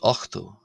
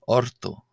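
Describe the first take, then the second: First: A throaty ch sound comes before the t. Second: An r sound comes before the t. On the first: This is the southern dialect form. "will pronounce this as ochto in southern dialects" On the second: This is the Ulster dialect form. "in this R sort of form"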